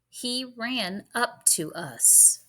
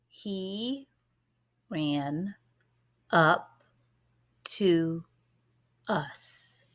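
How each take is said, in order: First: It is read at a normal pace. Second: It is read slowly.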